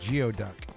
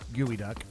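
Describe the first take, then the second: First: It is pronounced the way it is spelled. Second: It is pronounced like 'gooey duck'. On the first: The speaker calls it wrong. "kind of disappointed by the fact that one of those five star Michelin chefs was like" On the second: The speaker calls it right. "he said gooey duck"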